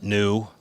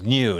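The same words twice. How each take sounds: First: NEW with a plain oo, no y; NEW without the glide. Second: NEW with a y glide after the n; liquid U in NEW. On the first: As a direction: say NEW as noo. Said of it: "not, not new". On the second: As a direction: say NEW as nyoo. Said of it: "It's like new". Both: Shown as a demonstration.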